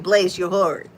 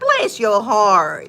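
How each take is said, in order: First: It sounds warm and sincere. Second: It sounds mocking and sarcastic.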